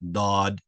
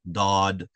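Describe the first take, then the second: The two takes are said the same way.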